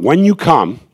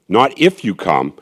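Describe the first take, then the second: First: You lifted, come falling; stress on you. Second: If punched, then falling away; stress on if. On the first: Inviting listeners to the New Hampshire event, stress on you. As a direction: lean on you, the phrase falls. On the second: Correcting himself for the listeners, stress on if. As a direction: hit the word if. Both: Shown as a demonstration.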